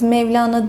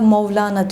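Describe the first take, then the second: First: The name is pronounced the Turkish way. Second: The name is pronounced the Persian way. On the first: This is how Turks say the name. "biz Mevlana diyoruz" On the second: This is how Iranians say the name. "İran'da Mevlana diyorlar"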